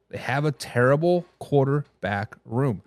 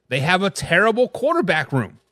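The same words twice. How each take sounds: First: Lower, softer and slow, weighing "terrible"; slow low emphatic repeat. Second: Said in the usual way. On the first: Real, not acted. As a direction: drop it heavily, slowly, letting it sink in.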